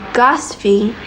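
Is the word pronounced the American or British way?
British. It is pronounced with a British accent. "gasping is British English"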